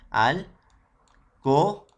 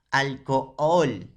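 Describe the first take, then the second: First: "Alcohol" said very slowly and louder, split syllable by syllable with a rise at the end. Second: "alcohol" drawn out slowly, syllable by syllable, a bit louder. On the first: Teacher showing students how to split it: very slow syllables. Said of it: "Haz como si esta no existiera". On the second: Teacher giving an example to students: slow syllables. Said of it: "Por ejemplo". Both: Shown as a demonstration.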